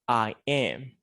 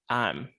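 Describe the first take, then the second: First: I am is said as two full words. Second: I am is contracted into one syllable. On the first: "instead of saying" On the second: "we can say"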